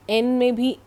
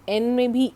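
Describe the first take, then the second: No difference in how they are said.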